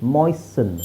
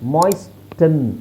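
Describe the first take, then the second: First: No t sound is heard in the middle. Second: A t sound is heard in the middle. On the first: The speaker calls it right. "ಮಾಯ್ಸ್ಟನ್ ಅಲ್ಲ ಮಾಯ್ಸನ್" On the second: The speaker calls it wrong. "ಮಾಯ್ಸ್ಟನ್ ಅಲ್ಲ"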